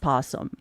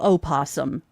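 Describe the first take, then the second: First: The word begins directly with the p sound. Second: The word begins with an extra vowel sound. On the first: The speaker calls it right. "just possum" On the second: The speaker calls it wrong. "no opossum"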